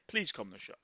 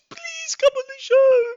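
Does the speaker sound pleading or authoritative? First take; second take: authoritative; pleading. First: It sounds firm and authoritative. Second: It sounds pleading and pathetic.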